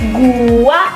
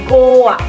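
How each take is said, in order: First: The first vowel is a u sound. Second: The first vowel is an o sound. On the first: The speaker calls it right. "Pelafalan fonem U" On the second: The speaker calls it wrong. "berubah menjadi fonem O"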